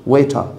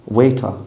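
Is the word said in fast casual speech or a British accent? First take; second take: British; British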